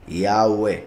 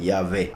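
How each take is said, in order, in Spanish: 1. El tercer sonido es una vocal u. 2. El tercer sonido es una consonante v. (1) "así es como se pronuncia, I A U E" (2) "cambiaron la Vav por, una, por el sonido de la V"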